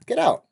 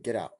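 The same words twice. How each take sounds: First: High, loud shout to get out. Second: Said in the usual way. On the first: Retold or imitated. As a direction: yell it at the intruder. Throwing a stranger out.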